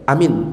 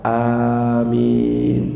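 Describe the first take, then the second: First: The vowel is kept short. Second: The vowel is drawn out long. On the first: Safe. The speaker calls it wrong. "kalau cuma pendek" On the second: May it be granted. The speaker calls it right. "Yang benar bacaannya adalah amin"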